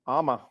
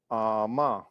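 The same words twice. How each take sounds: First: Quick, short "Ama" with a clipped final vowel; Ama said fast for water. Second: "Ama" with the final syllable drawn out slowly; Ama with slowed end for salt. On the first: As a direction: say "Ama" fast, no stretch at the end. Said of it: "If you say that word fast". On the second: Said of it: "with slowing the end of that word". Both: Shown as a demonstration.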